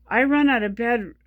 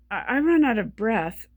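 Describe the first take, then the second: First: "bed" said by mistake where "breath" was meant; slip of the tongue. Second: Said in the usual way. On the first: Real, not acted. Explaining her breathing, she slips and says "bed" for "breath". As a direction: trip over the word, saying "bed" for "breath".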